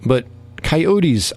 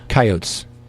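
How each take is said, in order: First: The word is pronounced in a softer, wimpier way. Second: The word is pronounced in a harder, manlier way. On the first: The speaker calls it wrong. "I think, is a wimpy way of saying coyotes" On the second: The speaker calls it right. "Doesn't that sound more manly?"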